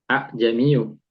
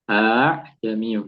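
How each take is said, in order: First: The opening vowel is short, not drawn out. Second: The opening vowel is drawn out and lengthened. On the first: The speaker calls it wrong. "ini nggak dibaca a jamiu" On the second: The speaker calls it right. "tapi a jamiu dipanjangkan"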